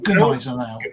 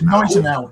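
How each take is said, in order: First: The opening G is sounded. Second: The opening G is silent. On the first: The speaker calls it wrong. "not Gneisenau" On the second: The speaker calls it right. "It's Gneisenau"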